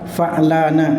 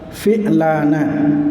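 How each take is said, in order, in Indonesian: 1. Konsonan pertama diikuti vokal a. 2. Konsonan pertama diikuti vokal i. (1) "dengan fathahnya fa" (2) "dengan kasrohnya fa"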